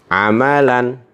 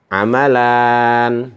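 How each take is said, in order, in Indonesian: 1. Suku kata terakhir tetap pendek. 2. Suku kata terakhir diucapkan panjang. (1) "bunyinya hanya satu ketukan" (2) "memanjangkan bunyi huruf ... itu tidak diperbolehkan"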